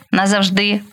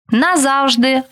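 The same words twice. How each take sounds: First: НазавжДИ, stressed on the final syllable; stress on last syllable. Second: НаЗАВжди, stressed on ЗАВ; stress on middle syllable. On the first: Teacher showing variant stresses to student, final stress on назавжди. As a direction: land on ДИ at the end of назавжди. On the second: Teacher showing variant stresses to student, stress on ЗАВ in назавжди. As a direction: punch ЗАВ in назавжди, pitched up. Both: Shown as a demonstration. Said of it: "Такий наголос ще називають варіантним".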